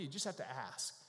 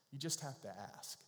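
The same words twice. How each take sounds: First: You just "have" to ask, leaning on "have" with a falling end; stress on have. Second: You just have to ask, quieter, leaning on "just"; softer repeat. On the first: Pastor to congregation, stressing "have". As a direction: press the word "have" and let it drop. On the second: Pastor repeating the point gently, softer, on "just". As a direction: drop the voice and lean on "just". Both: Real, not acted.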